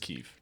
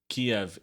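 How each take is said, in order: First: The name is said in the Ukrainian form, Kyiv. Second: The name is said in the Russian form, Kiev. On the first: This is the name used now. The speaker calls it right. "so it's just Kiev" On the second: This is the older name that is no longer used. The speaker calls it wrong. "Kiev is the Russian way of saying that city"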